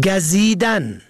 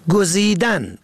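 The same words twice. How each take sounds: First: گزیدن said gazidan, short a first; گزیدن pronounced gazidan; fatha on first. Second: گزیدن said guzidan, short u first; گزیدن pronounced guzidan; damma on first. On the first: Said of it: "به فتح اول". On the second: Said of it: "به ضم اول". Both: Shown as a demonstration.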